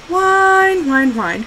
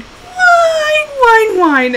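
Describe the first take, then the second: First: High, drawn-out mocking whine falling away; teasing mock whine. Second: Very high, sustained mock dog whine; teasing mock whine. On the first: Owner mocking her crying dog, teasing whine. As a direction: make fun of a crying dog. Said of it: "So I'd make fun of her". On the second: Owner making fun of her kenneled dog, high mocking whine. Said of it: "I was making fun of her".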